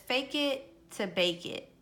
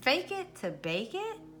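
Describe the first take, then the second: First: It is said as a plain statement, falling. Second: It is said as a question, rising.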